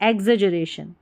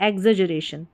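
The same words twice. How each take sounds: The two takes are said the same way.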